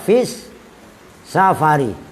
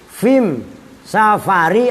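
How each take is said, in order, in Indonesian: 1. Kata sebelum safari diakhiri bunyi s. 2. Kata sebelum safari diakhiri bunyi m. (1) "asalnya fis safari" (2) "lamnya al itu bisa diganti mim menjadi am"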